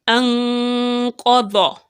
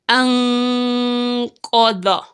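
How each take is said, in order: Both takes have the same delivery.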